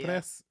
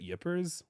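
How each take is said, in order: First: It is said with a French-style pronunciation. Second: It is said with a plain American pronunciation. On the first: "it might be like" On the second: "I've always called it Ypres"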